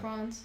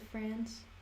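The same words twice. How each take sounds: First: The word is said with a British accent. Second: The word is said with an American accent. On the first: "some words I say more in the British way" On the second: "instead of"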